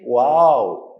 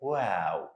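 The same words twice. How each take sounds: First: The letter is said heavy, with a full sound. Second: The letter is said light, with a thin sound. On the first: The speaker calls it wrong. "Don't say wow" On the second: The speaker calls it right.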